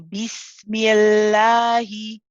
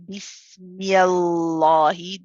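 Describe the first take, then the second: First: The l sound is light and thin. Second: The l sound is heavy and full. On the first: The speaker calls it right. "We say Bismillahi" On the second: The speaker calls it wrong. "So we do not say Bismillahi. This would be incorrect"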